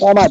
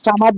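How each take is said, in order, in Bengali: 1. প্রথম স্বরধ্বনিটি ভারী শোনায়, 'o'-এর মতো। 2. প্রথম স্বরধ্বনিটি খোলা শোনায়, 'a'-এর মতো।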